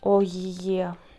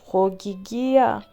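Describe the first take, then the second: First: The name is said with a Greek pronunciation. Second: The name is said with a guessed English pronunciation. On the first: "Ogygia is the name in Greek" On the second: "I suppose Hogigia"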